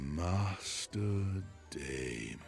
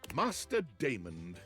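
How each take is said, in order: First: It is said in a sexier, seductive voice. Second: It is said in a plain British voice.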